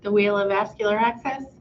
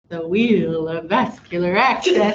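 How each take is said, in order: First: It is said in a normal speaking voice. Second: It is said in a put-on announcer voice.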